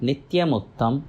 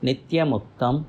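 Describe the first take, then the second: The two takes are said the same way.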